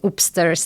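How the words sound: It is said in a northern Yorkshire accent. "we going upstairs"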